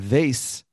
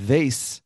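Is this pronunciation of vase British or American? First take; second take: American; American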